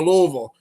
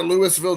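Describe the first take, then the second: First: Louisville run into "LOO-vull"; Kentucky pronunciation. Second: Louisville with the S, "LOO-iss-vill"; Georgia pronunciation. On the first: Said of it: "that is not how you say it for Louisville". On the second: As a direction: sound the S in Louisville. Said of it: "that's how you pronounce it". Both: Shown as a demonstration.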